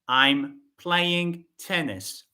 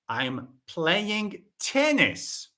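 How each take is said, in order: First: No word stands out; the delivery is flat. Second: The last word is said louder than the rest. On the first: "This sentence has no stress" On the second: "not football, no"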